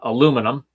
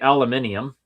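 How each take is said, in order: First: The word is said with four syllables. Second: The word is said with five syllables. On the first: This is the Canadian and American way. "We pronounce it in Canada" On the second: This is the British way. "In Britain, they say"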